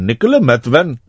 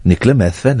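First: Put-on Indian accent. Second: Put-on Welsh lilt; Welsh accent. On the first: Host trying a name another way for co-host, Indian accent. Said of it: "If I did it in an Indian accent". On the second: Host guessing where a woman is from, Welsh accent. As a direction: say the name as if Welsh. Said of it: "I'm doing a Welsh accent".

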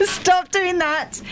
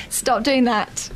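First: High drawn-out stop; high, slow protest. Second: Said in the usual way. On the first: Real, not acted. Laughing protest at teasing.

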